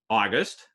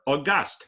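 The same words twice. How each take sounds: First: The stress is on the first syllable. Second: The stress is on the second syllable. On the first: The month. "the month" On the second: Important and majestic. "meaning important uh, and majestic"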